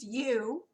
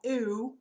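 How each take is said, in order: First: It starts with a y sound before the vowel. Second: It starts with a plain vowel, no y sound. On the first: The speaker calls it right. "but it's you" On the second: The speaker calls it wrong. "It looks like ooh"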